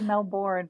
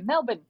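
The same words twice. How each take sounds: First: Melbourne is said with an American pronunciation. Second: Melbourne is said with an Australian pronunciation. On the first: "We say Melbourne" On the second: "but you guys say Melbourne"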